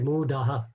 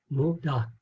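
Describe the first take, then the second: First: The final h is doubled with an echo vowel. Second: The final h is short and half-sounded. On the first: The word stands at the end of a sentence. "if that muda was at the end, we would say mudaha" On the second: The word stands in the middle of a sentence. "a little H, but half, not double"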